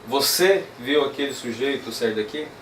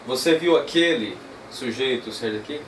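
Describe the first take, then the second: First: The word você carries the strongest stress. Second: The word aquele carries the strongest stress. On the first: "usar então a tônica aqui no você" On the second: "Esquece agora o viu e vamos para o aquele"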